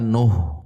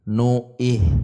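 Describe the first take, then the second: First: The n vowel runs straight into h. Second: An extra i vowel is inserted before h. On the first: The speaker calls it right. "langsung masuk ke huruf H" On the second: The speaker calls it wrong. "dibacanya nu'ih"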